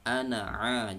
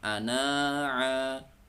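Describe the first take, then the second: First: The final vowel is short. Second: The final vowel is drawn out long. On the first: The speaker calls it right. "langsung ke ana'a" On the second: The speaker calls it wrong. "jangan ana'a"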